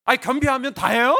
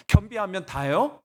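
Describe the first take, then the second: First: Loud, high indignant challenge; heated outburst, rising sharply at the end; arguing with God. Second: Restrained challenge with a rising question; pointed, mildly indignant question; arguing with God. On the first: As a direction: raise the voice and demand an answer. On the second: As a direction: challenge God, holding back a little. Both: Retold or imitated. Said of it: "제가 따졌거든요".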